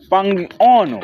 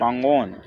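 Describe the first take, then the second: First: An extra vowel sound follows the g. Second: No extra vowel sound follows the g. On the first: The speaker calls it wrong. "Você logo vai me falar, não é assim" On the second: The speaker calls it right. "Tá a juntar com isso aqui, pangono"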